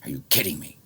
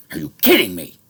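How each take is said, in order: First: Said in the usual way. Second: Furious disbelief, screamed at the top; outraged shout. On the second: Real, not acted. Venting about his island, a furious screamed question. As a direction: yell it, pitch shooting up, much louder.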